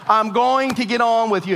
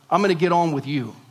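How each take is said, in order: First: It is said slowly and loudly. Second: It is said at a normal pace and volume.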